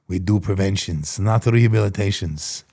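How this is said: It is said in a put-on Israeli accent.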